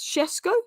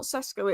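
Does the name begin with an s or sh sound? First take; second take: sh; s. First: The name begins with an sh sound. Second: The name begins with a plain s sound. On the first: The speaker calls it right. "it's Shes Shesko" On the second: The speaker calls it wrong. "it's not Sesko"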